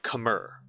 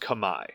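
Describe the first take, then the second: First: It is said with an R sound. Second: It is said with no R sound. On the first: The speaker calls it wrong. "not Khmer, which is how I grew up pronouncing" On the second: The speaker calls it right. "K H M E R is pronounced Kamai"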